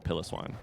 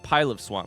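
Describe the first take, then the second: First: The first part sounds like the word pillow. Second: The first part sounds like the words pile of. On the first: The speaker calls it wrong. "Despite the fact that it is not pronounced like pillow, I definitely called it pillow swine" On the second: The speaker calls it right. "It's got to be pile of swine"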